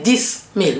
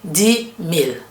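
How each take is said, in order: First: The final s of dix is pronounced. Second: The final s of dix is silent. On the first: The speaker calls it wrong. "We don't say dix mille" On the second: The speaker calls it right. "we say dix mille. the s sound becomes silent"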